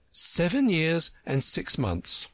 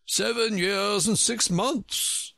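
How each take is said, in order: First: Said in the usual way. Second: Slow, much higher musing; Humpty Dumpty mulling over Alice's age, thoughtful; thoughtful repeat. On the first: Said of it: "Alice made a short calculation and said". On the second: A narrator's reading. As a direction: turn the words over slowly. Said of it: "repeated thoughtfully".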